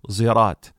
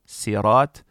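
First: It begins with an s blended with z. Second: It begins with a plain, light s sound. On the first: "and a mixture of sad and zay"

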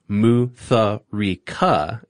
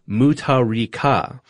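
First: The middle consonant is an English th sound. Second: The middle consonant is a plain t sound. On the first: The speaker calls it wrong. "not pronounced Mutharika, as y'all were pronouncing it" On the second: The speaker calls it right. "H's are often used to denote emphasis and are silent"

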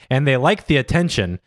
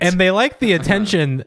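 First: The voice falls to a final close. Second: The voice stays up and carries on. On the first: The sentence is complete. The speaker calls it wrong. "my inflection implied that I was done" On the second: The sentence goes on. The speaker calls it right. "Here's what it actually says"

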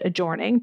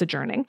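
First: The middle vowel rhymes with forming and storming. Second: The middle vowel does not rhyme with forming. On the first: The speaker calls it wrong. "they always pronounced it adjourning to try to rhyme it" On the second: The speaker calls it right. "but whatever, it's adjourning"

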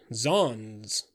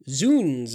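First: The word rhymes with 'dons'. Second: The word rhymes with 'sounds'. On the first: It is the fashionable gentlemen's form of the oath. "zons is the beau's pronunciation" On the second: It is the rough soldiers' form of the oath. "Zounds is only us'd by the disbanded officers and bullies"

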